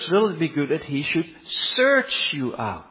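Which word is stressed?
search. The word search gets strong stress.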